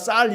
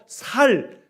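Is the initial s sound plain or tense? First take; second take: tense; plain. First: The word starts with a tense s sound. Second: The word starts with a plain s sound. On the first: The speaker calls it right. "물론 발음 다 쌀 이렇게 하는 사람들이 많습니다" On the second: The speaker calls it wrong. "이 격한 소리를 잘 못해서 살, 살 이렇게 말할 때가 있지요"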